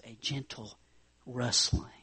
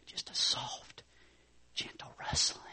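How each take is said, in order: First: Said in the usual way. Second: Soft breathy whisper of gentle rustling; hushed demo whisper. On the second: Shown as a demonstration.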